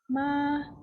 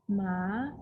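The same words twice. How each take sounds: First: The syllable is said with a high level pitch. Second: The syllable is said with a rising pitch. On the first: "One is first tone" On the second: "second tone"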